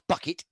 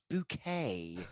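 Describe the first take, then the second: First: It is said plainly, like the word bucket. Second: It is said in a French way, like bouquet. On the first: The name is said the ordinary way it is spelt. The speaker calls it wrong. "it's spelt Bucket. It's, it's not Bucket" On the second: The name is said pretentiously to sound grander. The speaker calls it right. "it's Bouquet"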